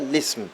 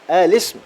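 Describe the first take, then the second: First: The word begins directly with the 'l' sound. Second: The word begins with an 'a' vowel before 'l'. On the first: "نبدأ باللام مباشرة" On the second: "نبدأ بهمزة الوصل"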